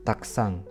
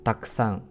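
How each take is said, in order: Both takes have the same delivery.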